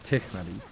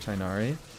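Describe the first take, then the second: First: The name is said with its original pronunciation. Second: The name is said with an American pronunciation. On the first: "his name is pronounced Tichnari" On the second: "I still use the American pronunciation for Tainari"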